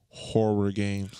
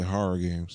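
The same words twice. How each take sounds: First: It is said slowly with each sound clear. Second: It is said fast with the sounds run together.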